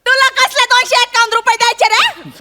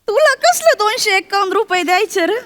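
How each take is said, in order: First: It is said in a louder voice. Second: It is said in a soft voice.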